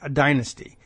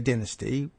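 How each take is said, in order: First: It is said with a non-British pronunciation. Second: It is said with a British pronunciation.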